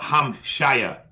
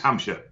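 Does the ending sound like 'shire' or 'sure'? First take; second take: shire; sure. First: The ending is a full 'shire' sound. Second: The ending is a reduced 'sure' sound. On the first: The speaker calls it wrong. "It's not Hampshire" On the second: The speaker calls it right. "It's Hampshire"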